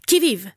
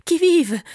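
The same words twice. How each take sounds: First: Confident shout. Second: Trembling challenge. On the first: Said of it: "cria-t-il avec plus d'assurance". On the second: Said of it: "la voix tremblotante". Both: Acted.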